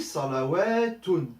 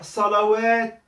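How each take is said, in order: First: The word ends with a vowel and n. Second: The word ends abruptly on t, no vowel. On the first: The word is not at a stop. "si je le dis" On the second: The speaker stops at the end of the word. "Si je prononce le mot et que je fais un arrêt"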